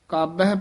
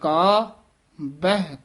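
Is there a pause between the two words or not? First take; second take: no pause; pause. First: The two words run together without a pause. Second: A pause separates the two words. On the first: The speaker calls it wrong. "ਕਾਬਹਿ ਪਾਠ ਨਹੀਂ ਕਰਨਾ" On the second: The speaker calls it right. "ਮੰਨੇ ਕਾ ਇੱਥੇ ਵਿਸਰਾਮ ਲਾਉਣਾ ਹੈ"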